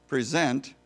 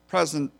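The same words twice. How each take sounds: First: The stress is on the second syllable. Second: The stress is on the first syllable. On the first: It means to give something, like a speech or reward. "putting an emphasis on a different syllable" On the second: It refers to the present time or tense. "the word present"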